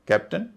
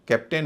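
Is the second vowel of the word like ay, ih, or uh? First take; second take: uh; ay. First: The second vowel sounds like a short uh. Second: The second vowel sounds like a long ay. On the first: The speaker calls it right. "अ" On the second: The speaker calls it wrong. "इसे कैप्टन नहीं कहेंगे"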